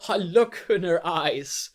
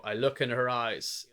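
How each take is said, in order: First: It is spoken in a cracking, emotional voice. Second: It is spoken in a steady, flat voice.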